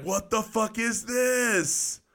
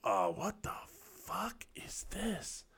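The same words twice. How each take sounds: First: Slow, high-pitched bewilderment; baffled exclamation. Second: Hushed disbelief. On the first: Young private answering his sergeant about the toilet, baffled high cry. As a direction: stretch it out high in mock disbelief. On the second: Young soldier facing a squat toilet, hushed disbelief. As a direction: whisper it slowly, as if stunned. Retells stunned first reaction. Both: Retold or imitated.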